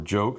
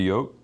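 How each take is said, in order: First: The word begins with a J sound. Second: The word begins with a Y sound.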